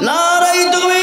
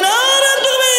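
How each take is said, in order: First: High, long-drawn chanted slogan; forceful takbir call. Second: Very high-pitched rallying cry; forceful takbir call. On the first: Preacher leading the crowd in takbir, drawn-out rallying chant. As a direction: hold the last vowel out for the crowd to answer. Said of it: "জোর দিয়ে বলি তো বাপ". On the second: Preacher urging a stronger takbir from the crowd, high forceful cry. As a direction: push the slogan right up high to rouse them. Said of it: "জোর দিয়ে বলি". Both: Real, not acted.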